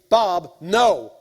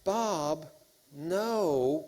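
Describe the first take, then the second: First: It sounds stern and menacing. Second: It sounds apologetic and lacks conviction. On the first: The refusal is final and backed by threat. The speaker calls it right. "there should be a sense of menace in your voice" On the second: The refusal is not firmly meant. The speaker calls it wrong. "with a sense of apology in their voice and a lack of conviction"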